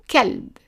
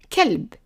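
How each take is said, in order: Both takes have the same delivery.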